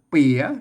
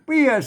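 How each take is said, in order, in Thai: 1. คำนี้ออกเสียงวรรณยุกต์จัตวา 2. คำนี้ออกเสียงวรรณยุกต์โทพิเศษ (1) "อ่านเปียเสียงจัตวา" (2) "อ่านเปียเสียงโทพิเศษโทเมือง"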